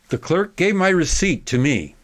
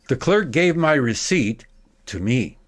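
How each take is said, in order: First: It is faster, with only a slight break. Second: A long pause follows the direct object. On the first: "at a quicker speed. I'll eliminate the, the dramatic break" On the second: "making a big pause after the direct object"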